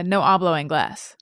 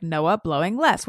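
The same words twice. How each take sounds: First: Hushed pun reveal. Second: Said in the usual way. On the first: Shown as a demonstration. Telling cohosts the hidden pun, whispered. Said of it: "It's, uh". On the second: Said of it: "I always looked at this".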